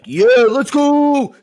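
It is yelled in a low, manly pitch.

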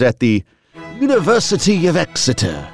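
It is said in a British accent. "is that your British accent you were doing there? It is"

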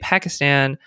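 It is said with an American pronunciation. The speaker calls it wrong. "who speaks with an American accent... I say Pakistan"

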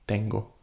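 The T is soft, almost like a D. The speaker calls it right. "bring your tongue a little bit further back. And it produces a softer sound. Almost like a D sound"

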